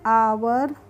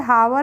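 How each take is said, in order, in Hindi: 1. इस शब्द की शुरुआत स्वर ध्वनि से होती है। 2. इस शब्द की शुरुआत h ध्वनि से होती है। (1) "इसको पढ़ते हैं आवर" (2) "हावर नहीं पढ़ते हैं"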